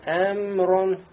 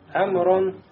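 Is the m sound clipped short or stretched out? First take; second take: stretched; clipped. First: The m is stretched out with a nasal hum. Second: The m is a short, plain lip closure. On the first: The speaker calls it wrong. "нельзя здесь, да, скользить над буквой мим, не говорить Эмрон" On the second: The speaker calls it right. "Должно быть как? Эмрон"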